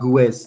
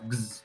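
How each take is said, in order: First: The ending has vowels sounded after the g. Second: The ending goes straight from g to z. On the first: The speaker calls it wrong. "Not gues, no" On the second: The speaker calls it right. "just gz"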